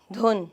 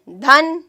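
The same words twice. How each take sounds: First: دھن with a rounded short "u", as in "dhun"; dhun pronunciation. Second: دھن with an open short "a", as in "dhan"; dhan pronunciation. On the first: Teacher contrasting look-alike words, دھن said "dhun". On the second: Teacher reading out a word list, دھن said "dhan". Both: Shown as a demonstration. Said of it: "دونوں لفظوں کا فرق واضح".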